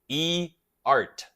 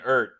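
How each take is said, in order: First: The name is said as two separate syllables. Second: The name is said as one single syllable. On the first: The speaker calls it right. "It's supposed to be E art" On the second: The speaker calls it wrong. "here I am still saying ert"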